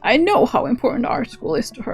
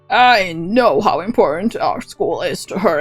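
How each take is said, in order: First: The voice is lighter and old-sounding. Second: The voice is darker and deeper. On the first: The speaker calls it wrong. "And now he's Granny" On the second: The speaker calls it right. "Can I do that in a darker voice?"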